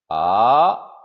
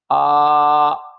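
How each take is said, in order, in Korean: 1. 중간에서 높은 쪽으로 올라가요. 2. 높고 평평하게 유지돼요. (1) "이성" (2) "일 성부터 사 성까지"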